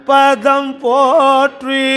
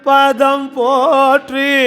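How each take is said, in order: The two takes are said the same way.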